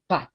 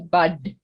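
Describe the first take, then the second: First: The word ends with a voiceless T sound. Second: The word ends with a voiced D sound. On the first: The speaker calls it right. "it almost sounds like a T" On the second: The speaker calls it wrong. "we don't say bud"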